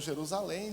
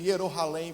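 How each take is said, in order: First: The word starts with a J sound. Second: The word starts with a Y sound. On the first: This is the later form. "o I virou J" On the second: This is the older form. "o I virou J"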